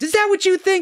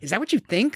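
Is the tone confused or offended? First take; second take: offended; confused. First: The line sounds offended. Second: The line sounds confused. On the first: The speaker feels insulted or judged. The speaker calls it wrong. "See, that's the way she delivered the line, as if he was insulting her or judging her" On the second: The speaker is puzzled by what was said. The speaker calls it right. "She should have been like"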